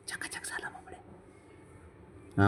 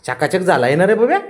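First: Slow, hushed whisper; whispered praise. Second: Loud, high cooing to a pet; gushing praise. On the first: Owner praising the freshly bathed pet, in a whisper. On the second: Owner praising the freshly bathed pet, gushing loudly. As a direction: praise the pet with a big lifted question. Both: Real, not acted.

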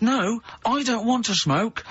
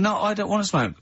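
First: High, slow, drawn-out mock protest; retold protest, pitched right up and stretched; exasperated retort. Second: Said in the usual way. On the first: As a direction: spell it out in exaggerated exasperation. Retold row, repeated with exasperation.

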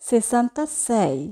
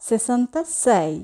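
The two takes are said the same way.

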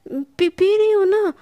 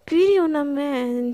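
First: High, loud flustered burst; flustered outburst. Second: Said in the usual way. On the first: A narrator's reading. Sana caving in to Palak's threat, flustered and loud. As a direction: blurt it out all at once, rattled.

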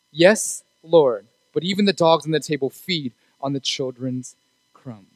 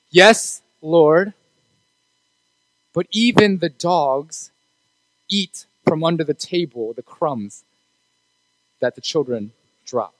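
First: Said in the usual way. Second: Slow, soft and measured, each phrase set apart; slow deliberate reply. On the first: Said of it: "Do you hear what I said?". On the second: Acted. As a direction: let the woman's answer land word by word. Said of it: "What does she say?".

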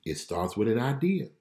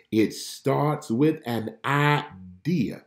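First: Said in the usual way. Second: Very slow, every word weighed; slow emphatic. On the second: Shown as a demonstration. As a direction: drag it out to drive the point home.

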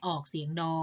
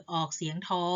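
First: ดอ with a voiced "d"; do sound. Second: ทอ with an aspirated "th", like English t; tho sound. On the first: Teacher lists two sounds of ฑ, voiced ดอ second. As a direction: say ดอ with a d, no puff of air. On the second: Teacher lists two sounds of ฑ, aspirated ทอ first. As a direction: say ทอ with a puff of air on the t. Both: Shown as a demonstration. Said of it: "ออกเสียงได้สองแบบ".

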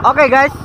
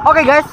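No difference in how they are said.

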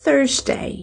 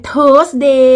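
First: "Thursday" as THURZ-day; "Thursday" stressed first, falling on day; English Thursday. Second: "Thursday" as tós-DAY, plain T; "Thursday" slowly, TH turned into T; Thai-style Thursday. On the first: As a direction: start "Thursday" on a soft TH. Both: Shown as a demonstration. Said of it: "ก็บ่แม่น Thursday".

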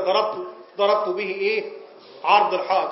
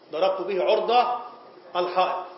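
First: The mistaken عرض الحائط with an open a; the wrong way to say عرض; wrong vowel. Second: عرض said as ʕurd, with a damma; the right عرض الحائط with an u sound; the correct way to say عرض; correct vowel. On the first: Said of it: "خطأ". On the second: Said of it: "عرض الحائط دي". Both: Shown as a demonstration.

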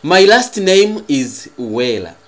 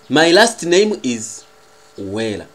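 No difference in how they are said.

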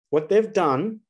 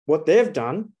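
No difference in how they are said.

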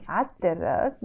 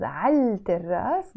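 First: عالتراس said 'at-terras, L silent; sun-letter assimilation. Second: عالتراس said 'al-terras, L sounded; L as written. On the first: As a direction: double the T in عالتراس in place of L. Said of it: "but pronounced as". (drop the L of عالتراس into a long T) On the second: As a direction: keep an audible L before the T in عالتراس. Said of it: "written as". (read عالتراس letter for letter with its L) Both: Shown as a demonstration.

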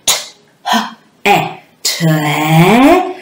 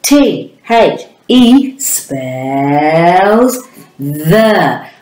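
First: T-H-E sounded out letter by letter as phonics sounds; sounding out words. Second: T H E said slowly as letter names, then "the". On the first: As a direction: sound out T-H-E sound by sound, wrongly. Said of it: "it would sound like this". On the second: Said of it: "you must say the letter names". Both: Shown as a demonstration.

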